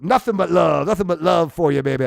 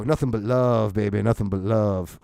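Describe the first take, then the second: First: Said in the usual way. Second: Lower, a lightly voiced guitar player's catchphrase; a hint of a laid-back musician signing off. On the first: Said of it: "own sign-off before retelling". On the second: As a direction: croon it like a mellow bar guitarist. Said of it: "He always used to go".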